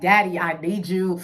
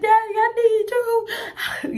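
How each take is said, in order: First: Said in the usual way. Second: High, slow, tearful wail; retold crying plea. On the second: Begging her daddy on the phone, high slow crying wail. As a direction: stretch it out like a sobbing kid. Retelling crying call to father.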